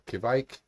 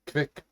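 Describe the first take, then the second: First: The word is said in a Norwegian-sounding way. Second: The word is said in a plain, English-like way. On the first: "Let's say Kivike. That sounds Norwegian" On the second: "I keep wanting to say it differently"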